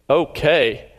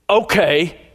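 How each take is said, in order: First: The word is said in a disgusted tone. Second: The word is said in an angry tone. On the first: "Or I look disgusted" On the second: "Or angry"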